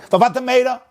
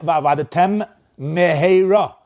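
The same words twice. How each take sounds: First: The two words run together with no break. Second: A small pause separates the two words. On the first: The speaker calls it wrong. "Don't say v'avadetem meheira" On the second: The speaker calls it right. "A little pause"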